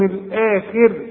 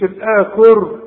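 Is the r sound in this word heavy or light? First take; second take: light; heavy. First: The final r sound is light and thin. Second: The final r sound is heavy and full. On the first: The speaker calls it right. "هنا عند الوقف رقق الراء" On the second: The speaker calls it wrong. "مش الآخر"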